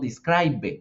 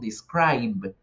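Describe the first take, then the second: First: A vowel is sounded after the final b. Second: The word ends on a bare b sound. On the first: The speaker calls it wrong. "nosotros en presente no decimos describe" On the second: The speaker calls it right. "en pronunciación se pronuncia solo la B"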